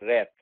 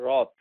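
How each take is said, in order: First: The vowel sounds like the a in cat. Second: The vowel sounds like the o in hot. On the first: The speaker calls it wrong. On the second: The speaker calls it right. "W R A T H এর উচ্চারণ হচ্ছে রথ"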